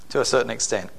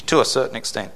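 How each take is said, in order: First: Softer repeat of "To a certain extent."; quiet echo. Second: Said in the usual way. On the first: Real, not acted. Preacher echoing his own qualifier to the church, much softer.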